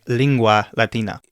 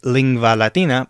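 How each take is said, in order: First: The sound after 'ling' is a W sound. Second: The sound after 'ling' is a V sound. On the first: The speaker calls it right. "but it's said like" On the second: The speaker calls it wrong. "It looks like"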